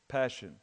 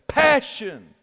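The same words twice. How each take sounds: First: The word is said flatly, without force. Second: The word is said forcefully, with passion.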